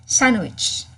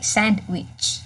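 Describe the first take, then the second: First: The d sound is left out. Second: The d sound is clearly pronounced. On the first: "it doesn't have D in anymore, so you'll just say sandwich" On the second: "you don't have to say sandwich"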